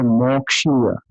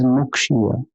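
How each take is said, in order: First: "Mokshiya" with an "o" in the first syllable, the common mistake; wrong pronunciation. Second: "Mukshiya" with a clear "u" in the first syllable; correct pronunciation. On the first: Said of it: "It is not Mokshiya". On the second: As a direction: say "Mukshiya" with a "u", not an "o". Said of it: "it is Mukshiya". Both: Shown as a demonstration.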